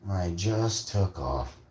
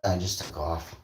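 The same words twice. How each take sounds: First: Slow, stretched-out emphasis on "just"; slow emphatic repeat. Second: Said in the usual way. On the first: Real, not acted. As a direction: draw it out for effect.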